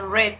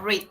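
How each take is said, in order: First: The vowel is short, like in 'red'. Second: The vowel is long, like in 'reed'. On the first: "acá se pronuncia red" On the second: "y acá read"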